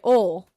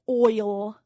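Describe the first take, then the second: First: It is said the Southern way, like 'ol'. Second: It is said the standard non-Southern way.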